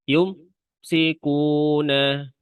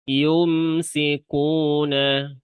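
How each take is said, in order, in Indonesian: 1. Bunyi m terputus dengan hentian setelahnya. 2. Bunyi m berdengung dan mengalir ke bunyi berikutnya. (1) "ada yang seakan-akan kayak diberhentikan" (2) "pada mim sukun suaranya masih jalan"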